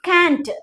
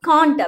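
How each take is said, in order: First: It is said with an American accent. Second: It is said with a British accent. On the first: "American இங்கிலீஷ்ல கேண்ட் அப்படின்னு சொல்லி சொல்லுவோம்" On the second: "British இங்கிலீஷ்ல காண்ட் அப்படின்னு சொல்லி சொல்லுவோம்"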